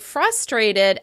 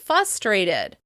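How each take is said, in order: First: The R sound is pronounced. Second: The R sound is dropped.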